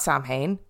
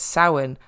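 First: The name is read out as it is spelled. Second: The name is said with its Irish pronunciation. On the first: The speaker calls it wrong. "So it's not Samhain" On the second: The speaker calls it right. "it's Samhain"

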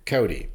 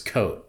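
First: The name is said like Cody, two syllables. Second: The name is said like the word coat. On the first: "I'll say begrudgingly, Cody" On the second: "how he pronounced it, was Cote"

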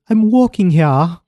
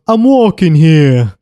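First: It is said in an English accent. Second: It is said in a New York accent.

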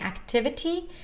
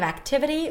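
First: The middle T is a crisp, true T sound. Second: The middle T is a quick, light flap sound. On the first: "if you don't use the flap T" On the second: "instead of"

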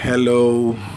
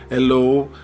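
First: The word starts with a clear h sound. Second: The word starts without an h sound. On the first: This is not how French speakers say it. "Eles não falam assim" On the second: This is how French speakers say it. "eles vão falar"

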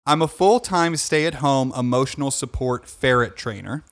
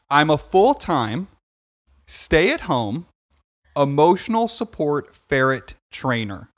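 First: The sentence is read at a quicker pace. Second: The sentence is read at a slower pace.

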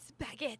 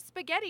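First: The word is said with an Italian-style pronunciation. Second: The word is said with a plain American pronunciation. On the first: The speaker calls it right. "You should say spaghetti" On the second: The speaker calls it wrong. "you shouldn't say spaghetti"

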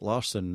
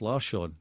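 First: The name is said with English-style pronunciation. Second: The name is said with Swedish-style pronunciation. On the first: "we say it in a very English-fied way" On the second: "officially it's Larsson"

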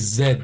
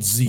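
First: The letter is said the Canadian way, zed. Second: The letter is said the American way, zee.

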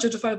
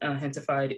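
First: The word begins with a J sound. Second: The word begins with an H sound. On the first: "It's spelled gentified" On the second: "I think it's pronounced hentified"

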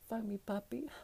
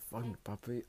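First: It is moaned in a girly voice. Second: It is moaned in a manly voice.

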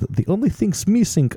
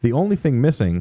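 First: It is said in a put-on Russian accent. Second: It is said in the speaker's normal accent.

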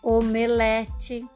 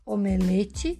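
First: The stressed vowel is open. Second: The stressed vowel is closed. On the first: The speaker calls it wrong. "eu falei algumas com som aberto" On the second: The speaker calls it right. "O correto é falar omelete"

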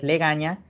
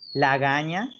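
First: The first vowel is an e sound. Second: The first vowel is an a sound. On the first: The speaker calls it right. "la forma correcta de decirlo es legaña" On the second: The speaker calls it wrong. "lagaña, que es lo que nos han enseñado"

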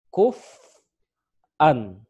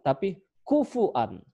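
First: A glottal stop follows the f with no vowel. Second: A u vowel and a glottal stop follow the f. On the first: "tapi kuf'an. Saya ulang" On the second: "ada yang membacanya bukan kuf'an, tapi kufu'an"

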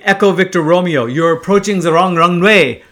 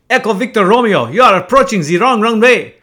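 First: It is spoken in the speaker's plain accent. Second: It is spoken with a put-on French accent. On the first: The speaker calls it wrong. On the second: The speaker calls it right.

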